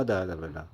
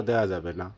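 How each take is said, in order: Both takes have the same delivery.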